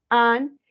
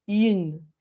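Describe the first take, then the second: First: AN loud, one French nasal vowel; nasalized vowel. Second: IN as French "une" with sounded N; denasalized vowel. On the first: Teacher repeating masculine for students, loud nasalized AN. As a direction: punch AN through the nose, like "un". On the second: Teacher repeating feminine for students, denasalized IN. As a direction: round the lips for IN, then release the N. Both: Shown as a demonstration. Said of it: "es quitándole la nasalización".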